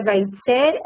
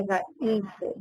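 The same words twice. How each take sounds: First: Vaitzer with the stress on the last syllable, vai-TZER; Vaitzer, stressed at the end, as the rejected reading; wrong stress. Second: Vaitzer with the stress on the first syllable, VAI-tzer; Vaitzer, stressed on Vai- and trailing off softly; correct stress. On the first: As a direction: say Vaitzer as oxytone, hitting -tzer. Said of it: "não é Vaitzer". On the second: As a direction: say Vaitzer as a paroxytone, leaning on Vai-. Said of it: "é Vaitzer". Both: Shown as a demonstration.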